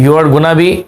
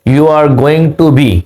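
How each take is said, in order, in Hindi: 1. 'Going to' को 'gonna' बोला जाता है। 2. 'Going to' पूरा बोला जाता है।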